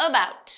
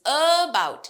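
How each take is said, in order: First: Said in the usual way. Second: ABOUT with the opening uh held long; slow demo of about, lingering on uh; drawn-out schwa. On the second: Shown as a demonstration. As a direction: stretch the first sound of about, then bout. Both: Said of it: "just like this".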